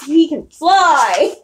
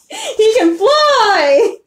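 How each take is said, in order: First: Said in the usual way. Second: High, slow, laughing through the words; can't stop giggling while saying it. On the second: Real, not acted. Repeats line, second laughing.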